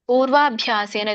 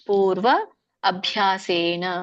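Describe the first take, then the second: First: The two words merge into one joined form. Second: The two words are said separately, unjoined.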